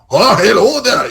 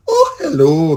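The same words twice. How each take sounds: First: Loud, high, harsh Scots; hammed-up harsh Scottish greeting; harsh Scottish accent. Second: A gently rolling Edinburgh hello; amateur Edinburgh lilt; lilting Edinburgh accent. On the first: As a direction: belt it in rough Scottish. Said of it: "It's not like". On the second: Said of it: "It's a beautiful little". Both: Shown as a demonstration.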